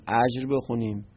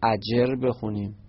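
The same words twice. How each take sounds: First: اجر said as ajr, one syllable, no vowel before the ر; اجر with ج and ر run together; one way to read it. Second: اجر said as ajer, with a short e before the ر; اجر with a clear e between ج and ر; the other reading. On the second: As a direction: read اجر in two syllables, a-jer. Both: Shown as a demonstration. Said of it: "اینو چطوری بخونیم؟".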